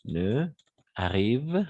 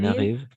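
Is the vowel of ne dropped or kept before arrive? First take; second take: kept; dropped. First: The vowel of ne is kept before arrive. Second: The vowel of ne is dropped before arrive. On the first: The speaker calls it wrong. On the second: The speaker calls it right. "n'oubliez pas les, les lisions"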